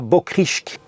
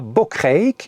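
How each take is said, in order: First: The 'ij' vowel is not pronounced as 'ei'. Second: The 'ij' vowel is pronounced as the 'ei' diphthong. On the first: The speaker calls it wrong. "et non pas à" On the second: The speaker calls it right. "IJ, ça se prononce ei"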